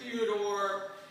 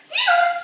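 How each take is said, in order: First: It is said in a low, angry voice. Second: It is said in a high, happy voice.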